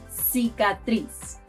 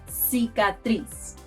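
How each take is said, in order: The two takes are said the same way.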